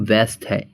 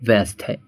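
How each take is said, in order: Both takes have the same delivery.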